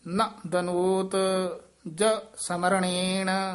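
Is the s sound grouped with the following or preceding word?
following. The s sound starts the following word. The speaker calls it right.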